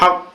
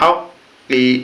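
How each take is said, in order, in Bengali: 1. শব্দটি ব্যঞ্জনে শেষ হয়, কোনো স্বর ছাড়া। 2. শব্দটি ছোট 'i' স্বরে শেষ হয়। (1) "উচ্চারণ করলে বা থামলে হবে হক" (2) "কবজের কি হক কি"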